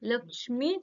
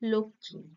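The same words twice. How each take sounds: First: The middle consonant cluster is said in full. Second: The middle consonant cluster is said simplified. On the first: "উচ্চারণের কঠিন একটা কঠিনতম একটা উচ্চারণ" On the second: "একটা সহজসাধ্য শব্দ তৈরি করা হয়েছে"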